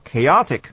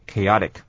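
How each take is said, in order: First: The t is pronounced as a crisp t. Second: The t is softened into a light flap.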